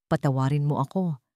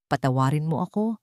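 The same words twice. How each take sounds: The two takes are said the same way.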